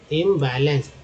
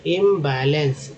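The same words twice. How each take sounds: First: Said in the usual way. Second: imbalance slowly, first syllable held; teacher's slow imbalance; sounding out. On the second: Shown as a demonstration. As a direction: stretch imbalance out part by part. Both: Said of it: "IM को इम बोलते हैं".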